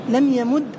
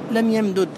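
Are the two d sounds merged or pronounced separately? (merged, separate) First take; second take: merged; separate. First: The two d sounds merge into one doubled d. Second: The two d sounds are pronounced separately. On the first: "جاز الإدغام" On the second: "والإظهار"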